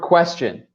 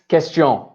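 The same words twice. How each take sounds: First: It is said with an English accent. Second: It is said with a French accent.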